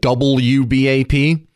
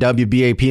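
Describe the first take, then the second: First: The W is said in full as 'double-u'. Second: The W is shortened to 'dubya'.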